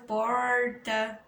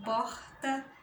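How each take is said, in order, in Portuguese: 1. O R é pronunciado de forma clara e forte. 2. O R é só um sopro de ar. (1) "em algumas regiões, né? De, de, de São Paulo" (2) "a gente nem pronuncia, né? É, porta, or, sai só um ar da nossa boca"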